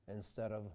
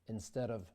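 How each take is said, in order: Both takes have the same delivery.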